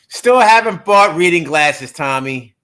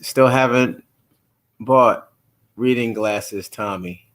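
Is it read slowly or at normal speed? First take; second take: normal speed; slowly. First: It is read at normal speed. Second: It is read slowly.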